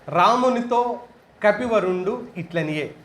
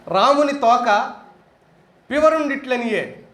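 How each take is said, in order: First: The break comes after 'Ramunitho', before 'kapivarundu'. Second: The break comes after 'Ramuni', grouping 'thoka' together.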